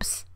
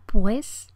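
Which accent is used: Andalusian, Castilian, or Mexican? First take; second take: Mexican; Castilian. First: The vowel is almost lost, leaving only p and s. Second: The consonants are tense and the final s is clear. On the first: "pierde casi la vocal para quedar en un ps prácticamente" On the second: "un hablante castellano articularía pues y entonces con las consonantes tensas"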